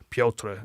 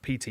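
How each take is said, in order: First: The name is said with a foreign-sounding Pyotr pronunciation. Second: The name sounds like the English name Peter. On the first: The speaker calls it right. "I just sound weird" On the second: The speaker calls it wrong. "I keep getting told off for saying his name wrong"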